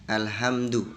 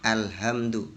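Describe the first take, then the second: Both takes have the same delivery.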